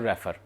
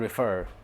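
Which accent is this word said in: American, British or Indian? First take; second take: Indian; American. First: It is said in a common Indian English way. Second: It is said in an American English accent. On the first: The speaker calls it wrong. "हमारे mostly जो लोग हैं वो उसको कहते हैं रेफर" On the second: The speaker calls it right. "American English में है रेफर"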